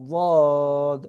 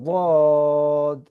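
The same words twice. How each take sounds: The two takes are said the same way.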